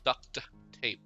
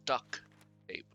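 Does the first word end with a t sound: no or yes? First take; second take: yes; no. First: The first word ends with a clear t sound. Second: The first word ends without any t sound. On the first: The speaker calls it right. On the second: The speaker calls it wrong. "not duck tape"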